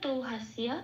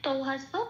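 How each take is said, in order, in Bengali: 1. সংস্কৃত ধাঁচে পড়া, স্পষ্ট y উচ্চারণ সহ। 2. বাংলা ধাঁচে পড়া, স্পষ্ট y উচ্চারণ ছাড়া। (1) "এটাকে কিভাবে সংস্কৃততে বলবো" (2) "এটা আমি বাংলায় বললাম।"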